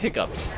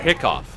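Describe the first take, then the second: First: The word ends with an 'ups' sound. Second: The word ends with an 'off' sound. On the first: The speaker calls it right. "no, that's hiccups" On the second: The speaker calls it wrong. "is that hicco or hiccough?"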